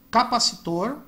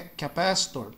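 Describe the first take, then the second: First: Capacitor as ka-pa-si-TOR, stress at the end; Portuguese pronunciation. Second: Capacitor as kuh-PASS-tor, American R; English pronunciation. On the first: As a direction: say capacitor the Brazilian way, every vowel full. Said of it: "Percebam que o nome é o mesmo". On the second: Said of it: "muda a pronúncia". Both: Shown as a demonstration.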